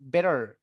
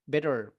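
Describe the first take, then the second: First: The t is a soft d-like flap. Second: The same.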